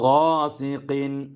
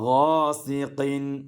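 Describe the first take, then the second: Both takes have the same delivery.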